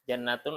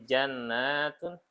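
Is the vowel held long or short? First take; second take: short; long. First: The vowel is held short. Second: The vowel is held long. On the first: There is one garden. "artinya satu kebun" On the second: There are many gardens. "berarti banyak"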